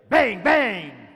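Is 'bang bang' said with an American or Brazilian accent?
American. It is said with an American English accent. "O revólver americano é bang bang"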